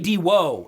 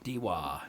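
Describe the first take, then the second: First: The final vowel is an 'oh' sound. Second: The final vowel is an 'ah' sound. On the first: The speaker calls it right. "It should be Diwo" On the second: The speaker calls it wrong. "people change an O to an A every fucking time"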